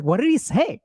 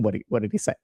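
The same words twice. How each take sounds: First: High-pitched, pressing mock demand; insistent questioning. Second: Low, softer echo of the question; puzzled echo. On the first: Wife pressing her husband about the call, mock insistent. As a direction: imitate an impatient wife pushing for details. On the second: Retold or imitated. Husband echoing his wife's question back to her, puzzled.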